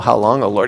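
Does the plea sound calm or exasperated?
calm. It is said in a calm, mild way. A simple, patient question. The speaker calls it wrong. "It's not just, you know"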